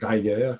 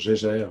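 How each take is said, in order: First: The name is pronounced the German way. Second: The name is pronounced the French way. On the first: "si on prononce correctement à l'allemande" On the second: "en français"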